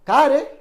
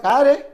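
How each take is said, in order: First: The middle h sound is dropped entirely. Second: The middle h sound is dropped entirely.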